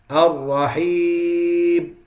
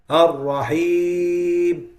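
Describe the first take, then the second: The two takes are said the same way.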